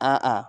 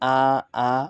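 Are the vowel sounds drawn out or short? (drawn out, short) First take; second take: short; drawn out. First: The vowels are kept short. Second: The vowels are drawn out long. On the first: The speaker calls it right. "এইভাবে আমরা উচ্চারণ করব।" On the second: The speaker calls it wrong. "কখনোই হরকতের উচ্চারণ লম্বা করা যাবে না। যদি করি আ আ তাহলে এটা আমাদের ভুল।"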